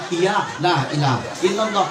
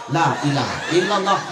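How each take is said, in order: First: "Iya, la ilaha illallah" mumbled as ia lah ila ilalo; laughing sloppy reply; sloppy zikir. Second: Lazy "la ilaha illallah" smeared to la ilah ilalo; chuckling rushed chant; sloppy zikir. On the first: Mocking the crowd's slurred answer. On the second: Mocking careless zikir, slurred and quick. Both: Shown as a demonstration. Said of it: "Macam mana zikir begini".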